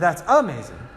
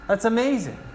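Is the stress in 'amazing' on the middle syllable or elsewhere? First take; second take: elsewhere; middle. First: The stress falls on another syllable. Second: The stress falls on the middle syllable. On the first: The speaker calls it wrong. "It would be odd if I said" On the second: The speaker calls it right. "May is where the accent is"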